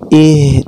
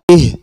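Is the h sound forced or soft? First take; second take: soft; forced. First: The h is soft, from the throat. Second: The h is forced from the chest. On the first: The speaker calls it right. "dengan melembutkan bacaan" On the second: The speaker calls it wrong. "dibaca terlalu berlebihan sehingga makhrajnya pindah ke dada"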